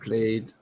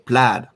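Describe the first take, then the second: First: The vowel sounds like the one in 'made'. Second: The vowel sounds like the one in 'mad'. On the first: The speaker calls it wrong. "I think I'm pronouncing it wrong by saying played" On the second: The speaker calls it right. "it's pronounced plaid"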